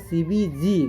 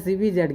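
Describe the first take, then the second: First: The last letter is said as zee. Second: The last letter is said as zed. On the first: This is how it is actually said. The speaker calls it right. "इसको बोला जाता है actually में C B जी" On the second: This is how most people say it. The speaker calls it wrong. "सब बोलता है C B जेड"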